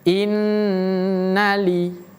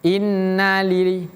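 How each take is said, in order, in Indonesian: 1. Bunyi nun ganda ditahan lebih lama. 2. Bunyi nun ganda cepat dipotong. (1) "tahannya agak lama" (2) "jangan cepat-cepat pindah"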